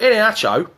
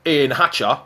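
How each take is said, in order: First: "Hatcho" ending in a clear long OH; correct name pronunciation. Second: "Hatcher" ending in a loose UH; mispronounced name. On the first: Shown as a demonstration. Presenter gives the player's real name, "Hatcho" ending in OH. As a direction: say "Hatcho" with final -oh, not -er. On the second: Retold or imitated. Presenter mimics Frank's misspelt name, "Hatcher" ending in UH. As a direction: say "Hatcher" with final -uh, not -oh. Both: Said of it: "as Frank calls him".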